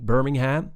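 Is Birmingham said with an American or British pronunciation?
American. It is said with an American pronunciation. The speaker calls it wrong. "which you might hear an American say"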